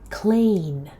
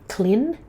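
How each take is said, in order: First: The vowel is a long E sound. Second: The vowel is short and clipped. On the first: The speaker calls it right. "Try clean with a long E" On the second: The speaker calls it wrong. "so it's not clean"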